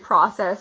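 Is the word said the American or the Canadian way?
American. It is said with an American pronunciation. "Americans say process"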